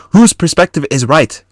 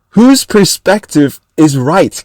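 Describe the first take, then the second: First: Said in the usual way. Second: Slow, higher, mock-cocky imitation; overblown confidence. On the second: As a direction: draw it out to mock his cockiness. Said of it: "With, like, overblowing confidence".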